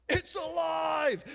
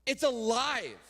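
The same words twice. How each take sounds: First: Slow, high, shouted proclamation. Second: Said in the usual way. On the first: Acted. Preacher to congregation, proclaiming the living Bible, slow shout. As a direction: belt it out slowly like a revival preacher.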